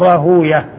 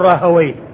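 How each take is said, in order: First: The w follows a u-vowel, ending in -uyah. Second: The w has an a-vowel, ending in -wayh. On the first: This is the form used by hadith scholars. "تكون الواو ساكنة وما قبلها مضموم" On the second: This is the form used by grammarians of the language. "عند اللغويين فتكون الواو مفتوحة والياء بعدها ساكنة"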